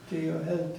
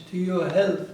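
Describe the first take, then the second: First: Said in the usual way. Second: "To your health" louder, like raising a glass; louder toasting "To your health". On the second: Shown as a demonstration. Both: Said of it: "that means".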